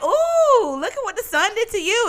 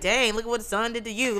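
First: It sounds admiring and pleased. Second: It sounds disapproving and negative.

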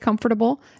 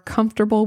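First: Every syllable is said as it is spelled. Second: The middle syllables are reduced in common speech. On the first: This is the speaker's old habit that others found odd. "I used to say comfortable" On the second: This is the way most people say it. "Now I say comfortable because that's what people are comfortable with"

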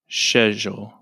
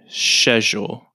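First: It is said the way British English says it. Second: It is said the way British English says it.

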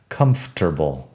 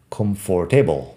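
First: It is said with only three syllables. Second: It is said with four full syllables. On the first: The speaker calls it right. "tiene una sílaba menos de lo que parece" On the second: The speaker calls it wrong. "parece que podría ser comfortable, pero no"

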